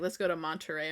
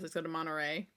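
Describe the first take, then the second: First: The T in Monterey is clearly pronounced. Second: The T in Monterey is dropped. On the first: "I've never been like" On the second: "I'm always"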